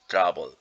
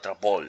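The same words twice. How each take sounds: First: The stress is on the first syllable. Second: The stress is on the second syllable. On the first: The speaker calls it right. "it's trouble" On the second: The speaker calls it wrong. "it's not trouble"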